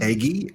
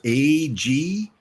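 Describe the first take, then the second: First: The name is said as one word, 'Aggie'. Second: The name is said as two separate letters. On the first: The speaker calls it wrong. "not Aggie" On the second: The speaker calls it right. "A G is how you pronounce this one"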